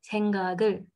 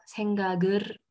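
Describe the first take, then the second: First: "생각을" ending in a clear L; final L, correct. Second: "생각을" ending in an R instead of L; final R, wrong. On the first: Teacher correcting the R form, "생각을" ending in L. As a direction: close "생각을" with the tongue on L, "geul". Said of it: "le son est automatiquement le son L". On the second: Teacher showing the difficult wrong form, "생각을" ending in R. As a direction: end "생각을" on a rolled "geur". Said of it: "Donc, c'est pas". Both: Shown as a demonstration.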